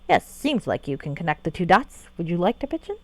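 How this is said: It is said in a snarky, sarcastic tone.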